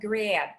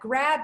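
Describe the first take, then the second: First: The vowel is tightened toward an e glide. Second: The vowel is a plain open a.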